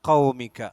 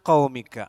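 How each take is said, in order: The two takes are said the same way.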